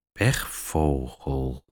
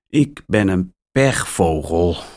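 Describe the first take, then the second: First: Pechvogel muttered low, soft and slow; mumbled. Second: Said in the usual way. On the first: A narrator's reading. Mia repeating Max's word to herself, soft slow mumble. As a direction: mumble pechvogel under your breath, much softer and lower. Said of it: "mompelt Mia". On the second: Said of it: "zegt Max".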